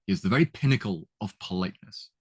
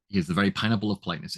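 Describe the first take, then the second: First: "pinnacle" said correctly, with the P sounds brought out; correct word. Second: Said in the usual way. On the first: Shown as a demonstration. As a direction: say "He is the very pinnacle of politeness" with crisp P's. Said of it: "you can hear that repetition of the P sound". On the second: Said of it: "It should be pinnacle".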